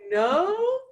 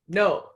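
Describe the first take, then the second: First: The word is said weakly and hesitantly. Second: The word is said strongly and firmly. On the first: The speaker is guessing the answer. The speaker calls it wrong. "if you say no like that" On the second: The speaker knows the answer. The speaker calls it right. "always say no very strongly. Like say no"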